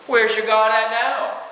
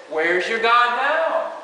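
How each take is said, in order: First: Mild taunt. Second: Slow, mocking taunt, pitched up. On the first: Retold or imitated. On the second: The enemy mocks the believer in trouble, slow and sneering. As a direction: drag it out like a jeer. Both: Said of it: "It's a taunting thing".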